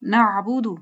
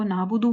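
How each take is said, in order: First: "نعبدو" as na'budu with throat catch; correct ain. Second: "نعبدو" as naabudu with no ain; smooth long a in "نعبدو", no throat catch; common mispronunciation. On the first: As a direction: squeeze the ain after na in "نعبدو". ("نعبدو" عین حلق سے ادا کر کے) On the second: ("نعبدو" عین کے بغیر، نابدو) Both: Shown as a demonstration. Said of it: "اس کو نعبدو بولتے ہیں".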